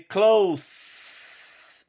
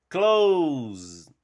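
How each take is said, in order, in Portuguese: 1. A consoante final é um som de s surdo. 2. A consoante final é um som de z sonoro. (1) "você lê close, não vibra" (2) "o S vai ter som de Z"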